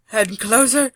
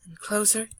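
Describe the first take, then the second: First: Much louder, building tension; mounting suspense. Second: Said in the usual way. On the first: A narrator's reading. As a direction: push this one harder toward the climax.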